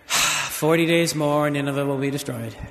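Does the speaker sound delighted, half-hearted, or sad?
half-hearted. It is said in a half-hearted, reluctant tone. The messenger does not care about the message. "Did he say it half-heartedly"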